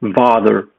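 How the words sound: The first sound is a voiced v. This is the far southern Kentish form. "but rather father"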